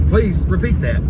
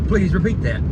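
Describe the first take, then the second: Both takes have the same delivery.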